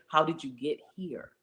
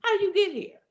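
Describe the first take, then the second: First: Said in the usual way. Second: Much higher, louder repeated question; incredulous challenge. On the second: Acted. Speaker challenging an imagined doubter, high and emphatic. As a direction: hit it again high, pressing the point.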